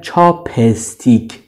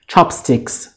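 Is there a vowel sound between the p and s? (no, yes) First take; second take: yes; no. First: A vowel is inserted between the p and s. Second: The p goes straight into the s. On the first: The speaker calls it wrong. "بین پی و اس یک حرف صداداری میارن که این غلطه" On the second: The speaker calls it right. "بین پ و اس هیچی نیست"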